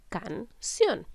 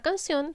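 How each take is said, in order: First: "canción" split in two, can... ción; syllable by syllable. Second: Said in the usual way. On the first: Shown as a demonstration. Teacher counts the syllables for pupils, syllable by syllable. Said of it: "tiene dos sílabas". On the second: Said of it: "es separar las palabras en sílabas".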